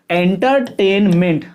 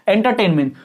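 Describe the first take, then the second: First: एंटरटेनमेंट slow, in three separate pieces en-ter, tain, ment; split into three syllables. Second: Said in the usual way. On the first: Shown as a demonstration. Teacher counting syllables for students, word in three pieces. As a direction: chop एंटरटेनमेंट into three even chunks. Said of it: "इन तीन टुकड़ों में हुआ". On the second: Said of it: "कितने टुकड़ों में तोड़".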